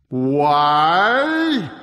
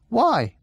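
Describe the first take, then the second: First: Loud, drawn-out giant voice; booming giant echo. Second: Put-on high, light boy's question; high questioning why. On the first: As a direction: echo the question in a huge voice. Giant echoes the question. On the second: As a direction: ask it simply and boldly. Odd asks the giant. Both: A narrator's reading.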